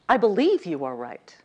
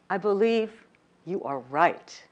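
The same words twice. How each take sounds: First: The stress falls on the word believe. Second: The stress falls on the word are.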